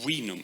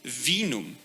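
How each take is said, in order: First: The word begins with a W sound. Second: The word begins with a V sound. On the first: This is the older way of saying it. "instead of vinum" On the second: This is the later way of saying it. "it just happened that you started to pronounce it vinum"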